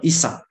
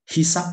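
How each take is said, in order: First: The word begins with a vowel sound. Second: The word begins with an h sound. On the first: This is the standard form. The speaker calls it right. "yang baku itu ternyata yang isab" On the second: This is the common but non-standard form. The speaker calls it wrong. "ada tidaknya huruf H"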